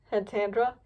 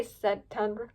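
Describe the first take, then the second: First: Tandra said as TAN-dra with a short a; corrected name. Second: Tundra said as TUN-dra, the first slip; soft misreading Tundra; misread name. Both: Real, not acted.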